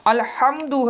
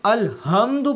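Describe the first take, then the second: First: अल्हम्दु with a throaty ह from mid throat; correct alhamdu. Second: अलहम्दु with a plain light h, the mistake; wrong alhamdu. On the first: Teacher giving the right अल्हम्दु before the wrong one. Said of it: "अगर उसे हम अलहम्दु पढ़ देंगे तो इसके मानी तब्दील". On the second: Teacher showing the wrong अलहम्दु that changes the meaning. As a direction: say अलहम्दु with an ordinary h. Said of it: "इसके मानी तब्दील हो जाएंगे". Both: Shown as a demonstration.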